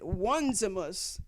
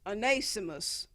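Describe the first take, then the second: First: The name begins like the word 'one'. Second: The name begins with an 'oh' sound.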